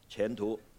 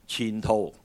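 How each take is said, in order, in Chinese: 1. 这个词是用普通话发音的。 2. 这个词是用粤语发音的。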